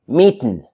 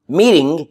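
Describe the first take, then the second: First: The word ends with a plain 'n' sound. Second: The word ends with a full 'ing' sound. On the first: "you say meetin'" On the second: "Instead of saying uh, meeting"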